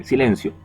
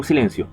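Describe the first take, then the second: First: A firm classroom "silencio", only slightly raised; teacher's warning tone. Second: Said in the usual way. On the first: Shown as a demonstration. Teacher silencing the students, mildly stern. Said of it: "lo digo en un tonito". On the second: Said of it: "Yo le digo silencio".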